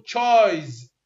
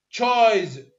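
First: تشايز said with a crisp ch at the start; ch sound demo. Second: تشايز repeated louder with a stressed ch; louder repeat of the ch demo. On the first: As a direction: model تشايز with a clear ch. (نطق تشايز بصوت التش) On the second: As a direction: say تشايز again, louder and slower. (تكرار تشايز بصوت أعلى) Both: Shown as a demonstration. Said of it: "وين ما أقرأ ش أقول".

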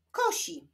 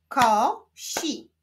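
First: Said in the usual way. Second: KO, pause, SI; syllable by syllable. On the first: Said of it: "Powstaną z nich wyrazy". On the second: Shown as a demonstration. Teacher continuing the exercise, Ko-si split apart. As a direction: sound out "Kosi" with a gap after Ko. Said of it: "łączmy sylaby".

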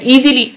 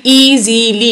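First: Said in the usual way. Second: "easily" slowly in three drawn-out beats; split into syllables. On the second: Shown as a demonstration. Teacher showing three syllables, "easily" broken apart. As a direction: sound out "easily" as ई, ज़ी, ली. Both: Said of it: "इसमें तीन syllable है".

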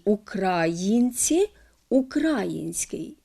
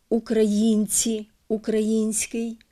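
First: Українці, український slowly stressed on the а; misplaced stress. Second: Українці, український stressed on the ї; correct stress. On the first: (помилковий наголос, повільно: укрАїнці, укрАїнський) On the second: (наголос на ї: украЇнці, украЇнський) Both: Shown as a demonstration. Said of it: "неправильно наголошують".

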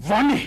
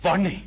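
First: వాణ్ణి thrown out higher and louder; angry outburst. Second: Said in the usual way. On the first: Acted. Husband raging at a clerk, wife listening: వాణ్ణి shouted angrily. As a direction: spit out వాణ్ణి in rage.

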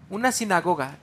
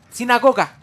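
First: Said in the usual way. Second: Loud high eureka; excited exclamation. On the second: Real, not acted. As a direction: blurt the answer out loud. Finding the word.

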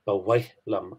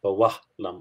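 First: "Bawaitlum" with w, the way it is said in Ulster; Ulster pronunciation. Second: "Bawahlam" with an open ah, no t; other dialect. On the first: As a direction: give "Bawaitlum" a w sound, not a v. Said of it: "that I say". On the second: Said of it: "and not". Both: Shown as a demonstration.

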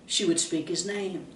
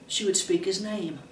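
No difference in how they are said.

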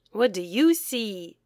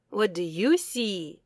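No difference in how they are said.

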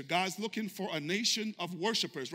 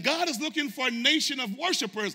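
First: Said in the usual way. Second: High, loud preaching of the line; shouting sermon line; preached cry. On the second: Shown as a demonstration. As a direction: proclaim it at full force. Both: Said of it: "Painting a picture".

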